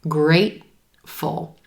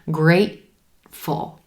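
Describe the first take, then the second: First: The T is held with a throat closure. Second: The same.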